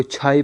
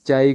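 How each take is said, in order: First: چھائی with an aspirated ch; Persian pronunciation. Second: چائے with a plain unaspirated ch; Urdu pronunciation. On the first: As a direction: puff air after the ch in چھائی. (چھائی فارسی تلفظ میں، ہوا والی چھ) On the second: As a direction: say چائے with no puff after ch. (چائے اردو تلفظ میں، بغیر ہوا کی چ) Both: Shown as a demonstration. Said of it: "چائے کو چھائی پڑھتے ہیں".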